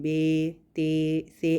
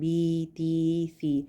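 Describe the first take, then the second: First: Each vowel sounds open, like 'ay'. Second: Each vowel sounds thin and high, like 'ee'. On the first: The speaker calls it wrong. "मजहूल नहीं पढ़ना, जैसे कि बे ते से ऐसे नहीं पढ़ना" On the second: The speaker calls it right. "इसको बारीक रखना है"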